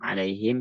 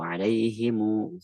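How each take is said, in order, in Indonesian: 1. Huruf m terakhir tidak bervokal, tidak ada vokal sesudahnya. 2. Huruf m terakhir membawa vokal u pendek. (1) "alaihim sukun" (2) "cara baca kedua baru alaihimu ghairi"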